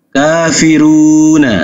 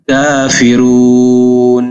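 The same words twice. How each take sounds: First: Kafiruna with the final na said fully; full final na. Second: Kafirun with a long u and no final vowel; long drawn stop. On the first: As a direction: say Kafiruna ending on a clear na. (Kafiruna dibaca lengkap dengan na) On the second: (kafirun dipanjangkan lalu berhenti) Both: Shown as a demonstration. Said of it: "nunnya tidak dibaca fathah".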